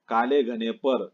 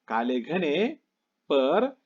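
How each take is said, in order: First: The pause comes after the word par. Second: The pause comes before the word par. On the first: The hair is described as lying on top. The speaker calls it wrong. "अगर ऐसा पढ़ा काले घने पर, पर यानी ऊपर ऐसा होता है" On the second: The hair is thick but cut short. The speaker calls it right. "इस प्रकार हमें पढ़ना है"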